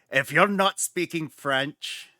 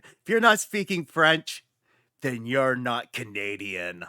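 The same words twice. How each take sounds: First: Clumsy attempt at a French-Canadian accent; a botched, slight French-Canadian lilt; bad French-Canadian accent. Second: Emphatic French-Canadian declaration; French-Canadian accent. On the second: Acted. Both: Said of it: "completely did a bad accent".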